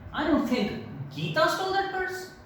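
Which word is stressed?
Geeta. The word Geeta carries the main stress. Someone else might have stolen it. "So now you're putting stress on Geeta"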